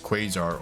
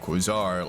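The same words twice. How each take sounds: First: It has the usual English pronunciation. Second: It is pronounced to sound like croissant.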